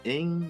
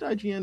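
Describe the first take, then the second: First: It is said as one single syllable word. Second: It is spelled out as three separate letters. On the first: The speaker calls it wrong. "if it's a word, I'm pronouncing it" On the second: The speaker calls it right. "Is it IGN?"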